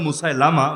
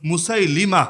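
First: The vowel before the final 'ma' is 'a'. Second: The vowel before the final 'ma' is 'i'. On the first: The speaker calls it wrong. "লোকে বলে মুসাইলামা, ভুল উচ্চারণ" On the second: The speaker calls it right.

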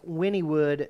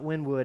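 First: The name is said with three syllables. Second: The name is said with two syllables. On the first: The speaker calls it right. "is pronounced Winniewood" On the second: The speaker calls it wrong. "not Winwood"

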